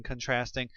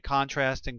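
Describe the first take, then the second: First: "contrasting" said con-TRASTing, first syllable reduced; second-syllable stress. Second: "contrasting" said CON-trasting, stress on the first syllable. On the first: Teacher showing the other way to say it, "contrasting" as con-TRASTing. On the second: Teacher showing one way to say it, "contrasting" as CON-trasting. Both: Shown as a demonstration. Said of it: "Either way".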